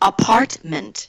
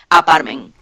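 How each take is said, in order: First: The T sounds are clearly pronounced. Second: The T sounds are dropped. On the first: The speaker calls it right. "la primera sílaba termina en T, la segunda sílaba termina en T" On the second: The speaker calls it wrong. "si no pronuncias la T ... vas a decir apartment"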